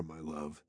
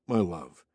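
First: Soft, dropped to near whisper; quiet menace. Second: Low, smooth and greasy; oily voice. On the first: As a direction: breathe it softly, threatening. Villain's sinister reply. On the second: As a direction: purr it, slick and lower. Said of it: "his oily voice matched". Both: A narrator's reading.

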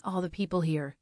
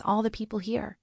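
First: Sardonic echo. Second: Goldie's gentle defence. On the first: Narrator throws the words back. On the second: Goldie defends the leader, gets echoed. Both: Acted.

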